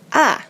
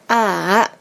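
First: The pitch falls sharply from high to low. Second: The pitch dips down and then rises. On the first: "Yang keempat adalah dari kiri atas ke kanan bawah ya" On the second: "yang ketiga kan tanda centang tuh"

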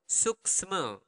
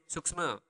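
First: It is said slowly. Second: It is said at natural speed.

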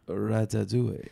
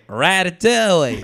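First: It is said with a French accent. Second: It is said with an American accent.

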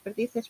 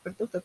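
First: The second vowel is an 'i' sound. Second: The second vowel is a 'u' sound. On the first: "repetía varias veces seguidas perdices" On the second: "acababa por pronunciar la palabra perduces"

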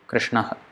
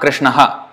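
First: The final breathy 'ha' is cut short. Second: The final 'ha' is a full syllable. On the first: The speaker calls it right. "The correct way of pronunciation is Krishnaha ... So you stop it there" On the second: The speaker calls it wrong. "It's not Krishnaha, that is H-A"

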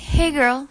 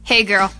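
First: It sounds friendly and nice. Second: It sounds off-putting and unwelcome.

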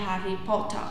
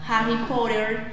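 First: It is said in a British accent. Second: It is said in an American accent.

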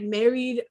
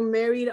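First: It sounds interested and intrigued. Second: It sounds resigned and let down.

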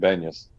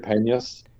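First: The name begins with a B sound. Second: The name begins with a P sound. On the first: This is the form used by speakers who cannot say P. "can't pronounce the P, so it became Banyas" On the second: This is the original form of the name. "So it's really Panyas"

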